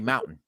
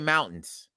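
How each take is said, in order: First: The T sound in the middle is dropped. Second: The T sound in the middle is pronounced. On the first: "They forget the T" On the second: "they don't say mountains"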